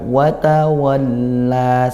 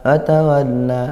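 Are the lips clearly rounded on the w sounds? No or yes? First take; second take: yes; no. First: The w sounds are made with clearly rounded lips. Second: The w sounds are made without moving the lips. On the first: The speaker calls it right. "tapi kita gerakkan watawalla, sempurnakan" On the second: The speaker calls it wrong. "Jangan watawalla, nah, itu tidak gerak bibirnya"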